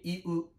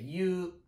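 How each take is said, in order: First: It is said as two separate vowels, i-u. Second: It is said as one syllable, like 'you'. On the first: "Não é que iu" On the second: "pode ser you, you, parecendo y-u mesmo"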